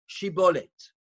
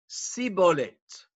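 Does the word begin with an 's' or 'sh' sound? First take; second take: sh; s. First: The word begins with a 'sh' sound. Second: The word begins with an 's' sound. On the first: The speaker is from Menashe. The speaker calls it right. "Please say the word Shibolet" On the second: The speaker is from Ephraim. The speaker calls it wrong. "They had a lisp. And they could only say Sibolet"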